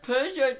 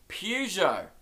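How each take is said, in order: First: It starts with per and ends with jo. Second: It starts with pew and ends with jo. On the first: The speaker calls it wrong. "You got per wrong, you got the je right" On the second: The speaker calls it right. "The correct pronunciation is Peugeot"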